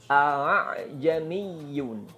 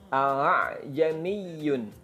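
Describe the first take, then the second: Both takes have the same delivery.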